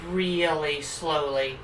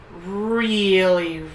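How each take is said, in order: First: "really slowly" stretched out slow and quieter; drawn-out slow words. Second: Said in the usual way. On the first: Shown as a demonstration.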